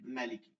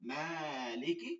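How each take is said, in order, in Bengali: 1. প্রথম স্বরধ্বনিটি ছোট রাখা হয়। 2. প্রথম স্বরধ্বনিটি লম্বা করে টানা হয়। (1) "সূরা নাসে মাতে টান নেই" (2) "সূরা ফাতিহার মাতে টান আছে"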